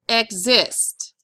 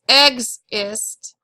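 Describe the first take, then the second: First: The stress is on the second syllable. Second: The stress is on the first syllable. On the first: The speaker calls it right. "it's exist" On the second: The speaker calls it wrong. "It's not exist"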